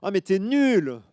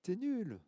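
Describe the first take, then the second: First: Put-on high, loud childish taunt; loud high you're useless; annoyed little girl. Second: High, soft faraway repeat; the taunt coming back as an echo; faint distant echo. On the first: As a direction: snap it like a cross little girl. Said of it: "elle commence à s'énerver". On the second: Acted. Echo answers the girl.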